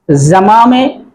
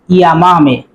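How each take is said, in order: First: The first consonant sounds like a 'zh' sound. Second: The first consonant sounds like a 'y' sound. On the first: "Puedes decir zamame" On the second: "o puedes decir llamame"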